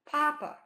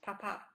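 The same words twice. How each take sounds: First: The first syllable is strong, the second weak. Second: Both syllables have equal, even, staccato beats. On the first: "papa has one strong beat" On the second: "two even staccato beats"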